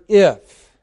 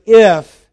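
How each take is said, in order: First: Said in the usual way. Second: "if," punched loud and raised; stress on IF. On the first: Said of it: "where you see the word". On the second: Shown as a demonstration. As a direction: hit the word "if," hard. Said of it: "and the word".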